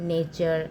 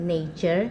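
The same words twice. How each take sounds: The two takes are said the same way.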